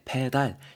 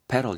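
First: It is pronounced with Korean loanword sounds. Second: It is pronounced with English sounds. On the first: The speaker calls it wrong. "페달 이렇게 발음이 되는 게 아니고" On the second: The speaker calls it right. "pedal 이렇게 발음된다"

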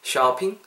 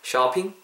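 The two takes are said the same way.

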